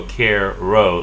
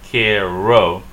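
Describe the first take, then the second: First: "care ro" split with an R ending "care"; R closing first syllable. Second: "care ro" split as "keh, roh", R only starting the second syllable; open first syllable. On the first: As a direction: say "care ro" slowly, R sounded in both syllables. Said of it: "Let's not go care ro". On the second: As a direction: divide "care ro" before the R, louder. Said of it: "Let's say ke". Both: Shown as a demonstration.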